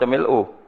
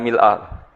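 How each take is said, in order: First: The word ends with a 'u' vowel. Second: The word ends with an 'a' vowel. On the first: This reading is permitted as a grammatical alternative. "wajaza raf'ul hamzah" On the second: This is how all the narrations have it. "Nabi macane mil'ah ... bi fathil hamzah"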